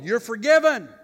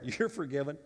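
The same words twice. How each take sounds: First: Much higher and louder, ringing out; triumphant shout. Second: Said in the usual way. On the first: Acted. Pastor voicing Jesus to the congregation, triumphant shout. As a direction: shout the pardon as the climax. Jesus's repeated answer, climaxing.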